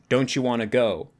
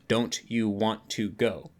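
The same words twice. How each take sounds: First: The t and y blend into a ch sound. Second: The t and y are said separately. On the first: "we often will say like" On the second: "instead of"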